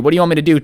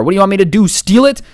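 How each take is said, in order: First: Said in the usual way. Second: Sassy exasperation. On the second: Retold or imitated. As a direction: push "do" hard, then a high mocking "Steal it?". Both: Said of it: "Of course I'm gonna get sassy with you".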